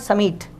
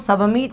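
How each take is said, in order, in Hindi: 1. शब्द में 'b' की आवाज़ छोड़ दी जाती है। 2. शब्द में 'b' की आवाज़ बोली जाती है। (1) "बी साइलेंट होता है, इसे पढ़ना है समीट" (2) "आपको सबमिट नहीं पढ़ना है"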